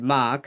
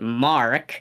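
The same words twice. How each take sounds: First: The name is said in a New Zealand accent. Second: The name is said in an American accent. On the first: "like in the New Zealand accent" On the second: "I repeated it again in an American Mark"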